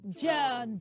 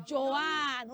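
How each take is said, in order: First: John as one-syllable "Joan"; correct pronunciation. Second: Joanne in two syllables, "jo-AN"; wrong pronunciation. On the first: Teacher gives the answer, John as long-O "Joan". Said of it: "We say what?". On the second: Teacher shows what not to say, Joanne as "jo-AN". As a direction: split Joanne into "jo" and "an". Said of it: "And we don't also say". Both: Shown as a demonstration.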